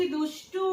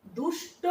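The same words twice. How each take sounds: First: দুষ্টু with a final উ; দুষ্টু as people say it; দুষ্টু, উ added at the end; everyday form. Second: দুষ্ট without the final উ; দুষ্ট ending on the cluster; দুষ্ট, the formal form; as spelled. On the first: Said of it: "কি উচ্চারণ করছি?". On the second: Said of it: "কথাটা কজন ব্যবহার করি আমরা?". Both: Shown as a demonstration.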